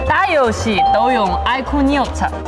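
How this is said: It is spoken in a Henan accent. "河南话"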